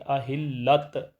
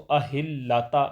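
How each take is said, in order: First: The word ends with a bare t sound. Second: The word ends with a t sound plus vowel. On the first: "अहिल्लत ऐसे नहीं पढ़ेंगे" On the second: "ऐसे इसको अहिल्लाता नहीं पढ़ेंगे"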